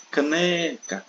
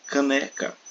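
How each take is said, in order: First: Caneca called higher, with a long NE; stressed syllable stretched. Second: Said in the usual way. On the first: Shown as a demonstration. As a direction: drag out the middle NE of caneca. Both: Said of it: "arrastar um pouco mais".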